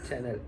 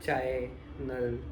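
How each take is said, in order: First: The first vowel sounds like 'cha'. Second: The first vowel sounds like 'chai'. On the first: The speaker calls it right. "नाही चॅनल" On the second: The speaker calls it wrong. "चाय नल नाही"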